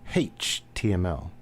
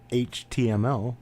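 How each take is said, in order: First: The letter H is said starting with an h sound. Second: The letter H is said without an h sound. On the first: "They put a hey on the beginning of their H's" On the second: "he didn't pronounce it H T M L"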